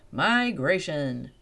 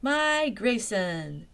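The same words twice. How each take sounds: First: Slow, louder guide's answer; calm answer. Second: High, louder, very slow echo; delighted echo. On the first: Guide answering the sisters, slow and sure. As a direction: say it slowly and plainly. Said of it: "answered the guide". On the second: Velma echoing the guide, slow and delighted. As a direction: repeat it with wonder. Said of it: "repeated Velma". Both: Acted.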